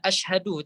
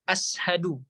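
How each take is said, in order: First: The middle consonant is a 'sh' sound. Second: The middle consonant is a plain 's' sound. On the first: "tidak asyhadu" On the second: "tapi ashadu"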